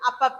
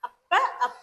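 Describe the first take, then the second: First: It is said as one joined word, no break. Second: It is split into two parts with a break. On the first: "அதே சேர்த்து சொல்லணும்னா" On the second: "இத நம்ம பிரிச்சு சொல்லணும்னா"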